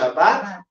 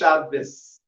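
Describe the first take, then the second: First: The word ends with a t sound. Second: The word ends with an s sound. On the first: "some will pronounce this final letter as a Taf" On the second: "some will pronounce this as a Sab"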